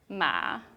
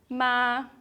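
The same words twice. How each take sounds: First: The pitch dips low, then rises. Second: The pitch stays high and level.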